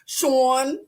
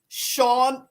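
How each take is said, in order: First: The name is said in a Philadelphia accent. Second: The name is said in a plain accent.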